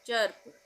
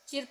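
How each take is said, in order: First: The vowel is an 'er' sound. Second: The vowel is a short 'ih' sound. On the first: The speaker calls it right. "इसका उच्चारण हम करेंगे अ का" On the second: The speaker calls it wrong. "चिर्प नहीं पढ़ेंगे"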